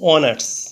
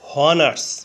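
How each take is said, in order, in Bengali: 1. শব্দটি সরাসরি স্বরধ্বনি দিয়ে শুরু হয়। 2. শব্দটি এইচ ধ্বনি দিয়ে শুরু হয়। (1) "এইচ এর উচ্চারণ না হয়ে ভাওয়েল ও থেকে উচ্চারণ শুরু হয়েছে" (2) "প্রথমে এইচ ধরে উচ্চারণ করলে হয় হনার্স"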